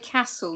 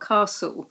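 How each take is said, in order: First: It is said with a northern English accent. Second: It is said with a southern English accent.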